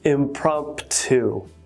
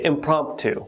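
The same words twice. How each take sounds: First: The second P sound is pronounced. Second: The second P sound is left out. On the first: The speaker calls it wrong. "we don't say impromptu" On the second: The speaker calls it right. "We say impromptu. We omit that second P"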